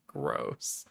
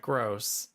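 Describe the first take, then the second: First: Breathy whisper of disgust. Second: Said in the usual way. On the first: Acted. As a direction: whisper the word Gross.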